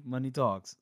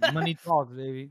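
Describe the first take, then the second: First: Said in the usual way. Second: Said through laughter; laughing, a bit louder. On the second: Real, not acted. Laughing at the book line.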